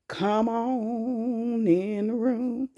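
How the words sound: It is said in a special put-on voice.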